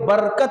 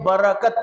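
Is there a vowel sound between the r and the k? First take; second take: No; Yes. First: The r closes the first syllable with no vowel. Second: A short a vowel follows the r. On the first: This is the Urdu way of reading it. "अगर उर्दू में आप उसी को पढ़ेंगे तो" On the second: This is the Arabic way of reading it. "अरबी में पढ़ेंगे तो"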